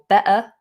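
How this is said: It is said in a regional British accent. "in some um, regional U K accents"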